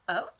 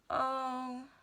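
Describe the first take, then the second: First: It sounds happy. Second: It sounds sad.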